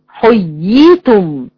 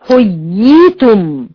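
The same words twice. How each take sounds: Both takes have the same delivery.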